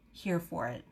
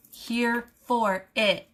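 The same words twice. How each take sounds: First: Soft, offhand murmur; quiet, unfussed delivery; understated aside. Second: HERE, FOR, IT each spaced out slowly; slow, deliberate weight on every word of "Here for it"; emphatic word-by-word. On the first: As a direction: say it low and casually. Said quickly, then repeated emphatically. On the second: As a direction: stretch "Here for it" into three separate beats. Emphatic repeat of the phrase. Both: Real, not acted.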